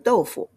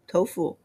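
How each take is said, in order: First: The word begins with a D sound. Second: The word begins with a T sound. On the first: This is the original Chinese pronunciation. "So it's called a 豆腐" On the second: This is how it is said in the West. "in the West, they call it tofu"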